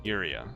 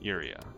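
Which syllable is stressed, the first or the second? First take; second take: first; first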